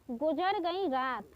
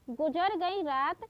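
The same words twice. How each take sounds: The two takes are said the same way.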